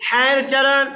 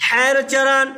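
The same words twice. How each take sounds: Both takes have the same delivery.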